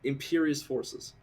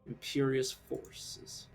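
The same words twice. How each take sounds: First: The words are spoken more loudly. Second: The words are spoken very quietly. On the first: The speaker calls it right. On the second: The speaker calls it wrong.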